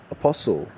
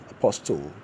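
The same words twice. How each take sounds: First: Apostle said uh-POS-ul, the T silent; correct pronunciation. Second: Apostle said with the T sounded, softer; wrong pronunciation. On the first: Teacher modelling the right form. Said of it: "The word is rendered as". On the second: Teacher mocking the error quietly. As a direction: quote Apostle with a clear t. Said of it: "No. The T is silent". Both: Shown as a demonstration.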